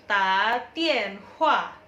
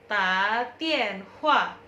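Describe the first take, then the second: The two takes are said the same way.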